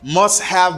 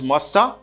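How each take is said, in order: First: Both words are said fully and separately. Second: The words blend into one reduced form.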